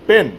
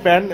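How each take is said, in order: First: The vowel sounds like the e in pen. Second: The vowel sounds like the a in pan. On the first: The speaker calls it right. "ওটা প্যান না, ওটাকে বলা হয় পেন" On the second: The speaker calls it wrong. "অনেকে বলেন প্যান প্যান প্যান"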